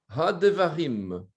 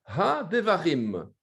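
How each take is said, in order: The two takes are said the same way.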